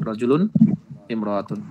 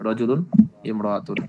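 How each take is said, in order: Both takes have the same delivery.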